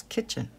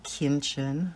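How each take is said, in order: First: Said in the usual way. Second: "kinchin" with an N slipped in before the ch; extra N. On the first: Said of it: "it's kitchen". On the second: Retold or imitated. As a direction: say "kinchin" as KIN-chin. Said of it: "He puts an extra N in there".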